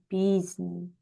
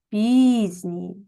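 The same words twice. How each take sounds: First: Said in the usual way. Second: Пізній with a louder first syllable; teacher marks stress in Пізній. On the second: Shown as a demonstration. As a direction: punch the і in Пізній. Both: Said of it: "Наголос падає на перший звук І".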